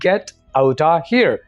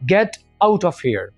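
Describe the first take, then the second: First: 'Out of' is reduced to 'outta'. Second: 'Out of' is said as two full words. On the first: "अंग्रेज की तरह" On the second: "अपनी simple language में"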